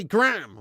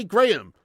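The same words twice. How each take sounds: First: "Graham" clipped to one syllable, gram; American Graham. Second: "Graham" said fully as GRAY-um; British Graham. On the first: Retold or imitated. Streamer imitating what Americans say, "Graham" as gram. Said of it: "They have to say Graham or something". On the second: Shown as a demonstration. Streamer insisting on what they can't say, "Graham" as GRAY-um. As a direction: give "Graham" both syllables, GRAY-um. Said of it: "They can't say Graham".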